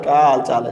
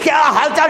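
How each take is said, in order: First: The greeting sounds relaxed and casual. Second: The greeting sounds hearty and warm.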